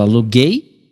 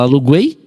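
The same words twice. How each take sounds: First: The u before the final vowel is silent. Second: The u before the final vowel is pronounced. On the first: The speaker calls it right. "você fala aluguei, tá vendo? ... O nem é pronunciado" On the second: The speaker calls it wrong. "Você não fala aluguei"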